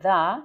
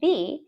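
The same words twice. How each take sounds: First: It has a short, neutral vowel with no glide. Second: It has a long vowel ending in a y glide. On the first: "instead of saying the" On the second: "you also add a little extra Y sound"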